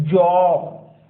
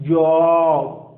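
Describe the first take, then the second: The two takes are said the same way.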